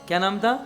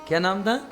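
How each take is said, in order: Both takes have the same delivery.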